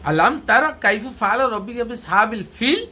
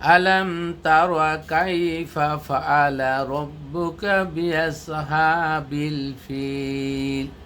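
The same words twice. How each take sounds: First: It is spoken expressively with questioning intonation. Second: It is recited in a melodic, song-like tune. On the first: The speaker calls it right. "এটার প্রশ্ন। ... সেইভাবে উচ্চারণ করা।" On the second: The speaker calls it wrong. "এটা একটা গানের সুর।"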